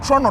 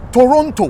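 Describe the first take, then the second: First: The middle T is dropped. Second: The middle T is clearly pronounced. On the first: The speaker calls it wrong. "Why do you guys keep on saying Toronto" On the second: The speaker calls it right. "the word is T O R O N T O. It's Toronto"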